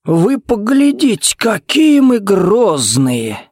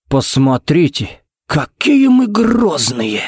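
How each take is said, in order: First: High, drawn-out mock awe. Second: Slow sing-song taunt, pitch swooping high; sighed mockery. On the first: Jared jeering at rival's threat, theatrically mocking. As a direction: stretch it out in an exaggerated high taunt. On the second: Jared teasing the sulking rival, mock-sighing. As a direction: draw it out with an exaggerated sigh. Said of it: "вздохнул Джаред". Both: A narrator's reading.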